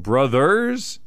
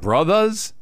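First: The word ends in a clear 'ers' sound. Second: The word ends in a relaxed 'uh' sound. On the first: They are actual siblings. "Actual brothers?" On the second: It is slang for close friends. "He didn't put an A on the end of it"

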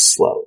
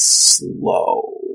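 First: The word is said plainly without extra emphasis. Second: The word is drawn out with heavy emphasis. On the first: Ordinary slowness. "This isn't just slow" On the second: An extreme degree of slowness. "get that extra tone"

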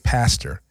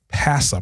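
First: The final r sound is pronounced. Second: The final r sound is dropped. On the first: "We don't say pastor" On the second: "It's P-A-S-S-A, Pastor Brown. That's how we pronounce it"

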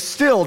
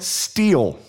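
First: The vowel is short, like 'still'. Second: The vowel is long, like 'steel'. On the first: The speaker calls it right. "I wanted to say still" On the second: The speaker calls it wrong. "I was pronouncing it steel"

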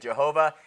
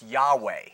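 First: The name begins with a J sound. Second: The name begins with a Y sound. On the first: The speaker calls it wrong. "Jehovah is not right" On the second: The speaker calls it right. "it's really probably more pronounced Yahweh"

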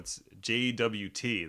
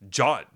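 First: The term is spelled out letter by letter. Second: The term is said as one short syllable. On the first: "That's three syllables. Four syllables" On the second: "JAWT is one"

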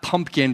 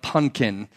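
First: The word is said in full, with 'mp'. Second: The word is reduced to 'punkin', without 'mp'. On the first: The speaker calls it wrong. "Not pumpkin" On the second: The speaker calls it right. "but punkin"

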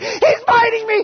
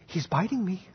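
First: It is screamed at full volume. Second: It is said at a normal, calm volume.

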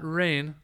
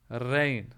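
First: It begins with an English-style r sound. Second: It begins with an Arabic ra sound. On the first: The speaker calls it wrong. "not rain" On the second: The speaker calls it right. "With a ra, not an r"

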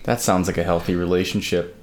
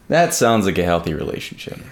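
First: It is said in a flat, monotone voice. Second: It is said with a livelier, more varied voice. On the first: The speaker calls it wrong. "the first time I was a little monotone" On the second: The speaker calls it right. "I wanted to say it again"

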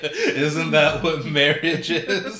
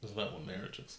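First: It is said loudly. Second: It is said quietly.

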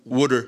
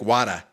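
First: It is said in a Philadelphia accent. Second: It is said in a Boston accent. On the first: "a real Philly accent" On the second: "And Boston would be like"

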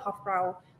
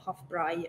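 First: The name is said with English-style pronunciation. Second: The name is said with German-style pronunciation.

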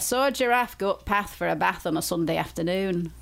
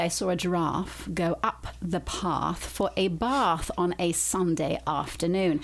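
First: It is spoken in a northern English accent. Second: It is spoken in a southern English accent. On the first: "in my Lancashire accent ... That's very northern" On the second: "in a southern accent"

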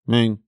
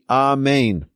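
First: The word is said with slurred letters. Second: The word is said with every letter clear. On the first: The speaker calls it wrong. "Not Amen, Amen, Amen" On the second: The speaker calls it right. "It should be Amen"

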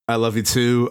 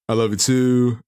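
First: It sounds flat and insincere. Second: It sounds warm and sincere.

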